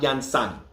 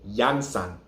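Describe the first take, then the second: First: The stress is on the second syllable. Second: The stress is on the first syllable. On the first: The speaker calls it wrong. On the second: The speaker calls it right. "the emphasis is on the first A"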